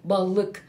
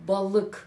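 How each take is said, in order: Both takes have the same delivery.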